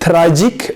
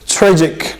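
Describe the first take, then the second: First: The tr sound is said with a foreign accent. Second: The tr sound is said like natural English. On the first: The speaker calls it wrong. "not tragic" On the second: The speaker calls it right. "it's tragic"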